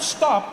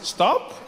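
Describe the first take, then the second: First: It is said as a firm, forceful command. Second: It is said as a soft, tentative suggestion.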